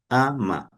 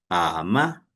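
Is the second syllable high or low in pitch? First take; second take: low; high. First: Both syllables are said on a low pitch. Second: Low first syllable, then a high second syllable. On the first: It means mother-in-law. "primero tiene el tono bajo, a, y luego el tono del tono bajo ma" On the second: It means but. "empiezan con el bajo"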